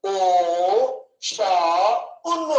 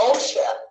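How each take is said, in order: First: ఓషన్ broken as "ఓ... షా... ఉన్"; drawn-out ఓ, షా, ఉన్ with pauses; over-split into three parts. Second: Said in the usual way. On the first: Shown as a demonstration. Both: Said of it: "ఎలా పలుకుతాం".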